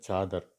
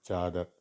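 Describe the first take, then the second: The two takes are said the same way.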